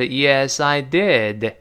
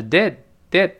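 First: "I did" slowly, final d of "did" released. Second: "did" said short, final d held back unreleased; quick, unreleased. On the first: Teacher shows slow reading, "did" drawn out and released. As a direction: say "I did" slow with a full ending on "did". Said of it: "读慢了还是". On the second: Teacher shows fast reading, "did" with unreleased d. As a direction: cut "did" short without exploding the d. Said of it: "但读快是". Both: Shown as a demonstration.

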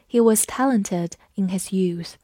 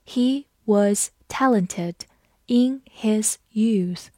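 First: Said in the usual way. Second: Slow, the end almost whispered; slow teacher read-aloud. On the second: Shown as a demonstration. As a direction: read it slowly for learners. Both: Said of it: "我们慢读一遍".

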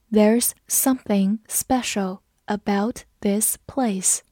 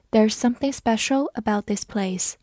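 First: Slow, careful read of the sentence. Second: Said in the usual way. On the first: Shown as a demonstration. Teacher reading slowly for students to follow. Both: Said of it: "我们慢读一遍".

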